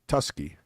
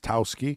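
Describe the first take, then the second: First: The syllable is said with an 'oo' vowel. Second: The syllable is said with an 'ow' vowel. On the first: This is how the written name appears to read. The speaker calls it wrong. "it almost looked like Tusky" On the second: This is how the name is actually said. The speaker calls it right. "but it's Towski"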